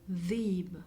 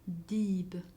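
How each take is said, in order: First: The word starts with a soft th sound. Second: The word starts with a plain d sound.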